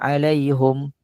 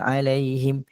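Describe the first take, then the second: First: The vowel after the h is u. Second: The vowel after the h is i. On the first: The speaker calls it wrong. "Kita pun dengar eh macam lain je ni" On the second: The speaker calls it right.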